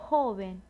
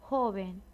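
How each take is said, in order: Both takes have the same delivery.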